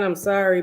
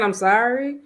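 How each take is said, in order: First: Said in the usual way. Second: Rising, sing-song sorry, imitating an empty apology; mock "sorry" with a lilt that rises at the end. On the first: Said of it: "you just keep saying". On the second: Boyfriend's repeated apology, mildly mocked with a rising "sorry". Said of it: "you can keep saying".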